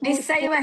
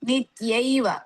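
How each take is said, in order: First: The middle consonant is a doubled s sound. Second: The middle consonant is a t followed by y. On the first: The speaker calls it wrong. "ನಿಸ್ಸೈವ ಹೇಳ್ಬೇಡಿ" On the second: The speaker calls it right.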